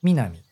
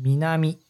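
First: The first syllable is high in pitch. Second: The first syllable is not high in pitch.

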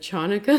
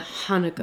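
First: The word begins with a hard ch sound. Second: The word begins with a breathy h sound. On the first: The speaker calls it wrong. "what I said then was the Chanukah" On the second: The speaker calls it right. "CH in Hebrew is pronounced like a huh"

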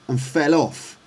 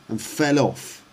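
No difference in how they are said.

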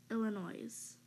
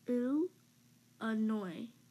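First: The final S is pronounced. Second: The final S is silent. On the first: The speaker calls it wrong. "never Illinois" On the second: The speaker calls it right. "the S is silent in Illinois"

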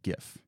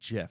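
First: The word begins with a hard g sound. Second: The word begins with a soft j sound. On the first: The speaker calls it right. "I say Gif" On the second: The speaker calls it wrong. "but I do not say Jif"

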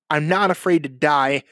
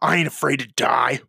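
First: It is said in a plain, matter-of-fact manner. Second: It is said in a hard, tough manner. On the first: The speaker simply states a feeling. The speaker calls it right. "I'm just saying I'm not afraid to die" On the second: The speaker is posing as tough. The speaker calls it wrong. "in a way harder than everybody else. Like"

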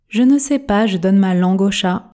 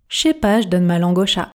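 First: The phrase is spoken at a normal speed. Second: The phrase is spoken quickly with dropped sounds. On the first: "Version normale" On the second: "Version express"

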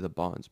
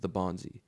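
First: The name ends on a consonant, with no final vowel. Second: The name ends with an extra final vowel sound. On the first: The speaker calls it wrong. "A lot of people want to say the Bonz" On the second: The speaker calls it right. "but it's the Bonzi"

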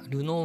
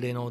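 First: The first vowel is a u sound. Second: The first vowel is an e sound. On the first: This is the usual Japanese name. "ルノーは" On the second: This is how English speakers say it. "レノーですよね"

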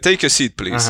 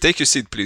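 First: It is said in a neutral tone. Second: It is said in an irritated tone.

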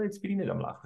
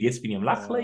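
First: It is spoken without smiling. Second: It is spoken while smiling.

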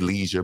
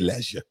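First: It is said the American way. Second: It is said the British way. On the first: "Over here, we say leisure" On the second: "but over there, they say leisure"

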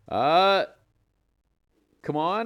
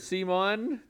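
First: The name sounds like the phrase 'come on'. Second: The name sounds like the name 'Simon'. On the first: This is the company's own pronunciation. "They pronounce it come on" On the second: This is the pronunciation most people use. "everybody's been calling it Simon"

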